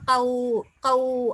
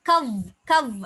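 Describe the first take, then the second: First: The ending is softened and gently drawn out. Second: The ending is cut off short and abrupt. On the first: The speaker calls it right. "லேன் லீன் இலகுபடுத்தி ஓதுறோம்" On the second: The speaker calls it wrong. "கவ் கவ் அன்னு உச்சரிக்காம"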